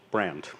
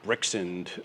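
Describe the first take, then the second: First: It is said as the single word brand. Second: It is said as one word, Brixend. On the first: The speaker calls it right. "I just call it brand" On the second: The speaker calls it wrong. "by far the worst of the pronunciations"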